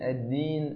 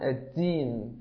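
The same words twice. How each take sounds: First: The first consonant is a clear voiced d. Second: The first consonant sounds close to a t. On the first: The speaker calls it right. "انطقها بهذا الشكل" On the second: The speaker calls it wrong. "كأنهم ينطقون الدال تاء"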